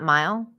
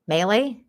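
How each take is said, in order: First: The name has one syllable, like mile. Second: The name has two syllables, like meh-lay. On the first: The speaker calls it wrong. "not mile" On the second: The speaker calls it right. "Melee, not mile"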